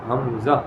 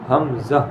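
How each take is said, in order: The two takes are said the same way.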